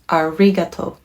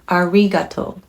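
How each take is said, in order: First: It is said with an English r sound. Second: The same.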